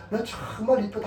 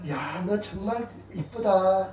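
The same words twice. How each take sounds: First: Said in the usual way. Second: Put-on slow, drawn-out compliment to a child; slow praise. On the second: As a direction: stretch each word of the praise slowly. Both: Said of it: "애들이니까".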